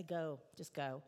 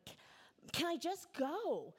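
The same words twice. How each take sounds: First: A touch of a tired mother relenting; slow, lower, mild mock sigh of a mom giving up. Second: Put-on frustrated child. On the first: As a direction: let it go, mildly worn out. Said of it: "eventually relent and say". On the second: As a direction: whine it out like a fed-up little girl begging to leave. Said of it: "I would get so frustrated".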